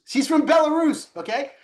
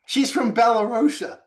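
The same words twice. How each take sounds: First: "Belarus" said right, much higher and louder; corrected name. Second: "Belarusia" said first, then dropped; mispronounced. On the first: Telling the co-host where she's from, "Belarus" stressed. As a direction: land "Belarus" with emphasis. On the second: Correcting the country's name to his co-host, "Belarusia" first. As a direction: try "Belarusia" and catch it. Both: Retold or imitated. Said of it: "I'm like".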